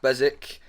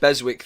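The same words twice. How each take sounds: First: The W in the name is silent. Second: The W in the name is pronounced. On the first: The speaker calls it right. "it's a silent W" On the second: The speaker calls it wrong. "I think you said Beswick there, and some people do get that wrong"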